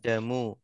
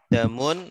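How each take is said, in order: First: The word ends in a plain u vowel. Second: The word ends with an added n sound. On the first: The speaker calls it right. "maka bacanya damu karena dia mudhaf" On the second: The speaker calls it wrong. "tidak damun"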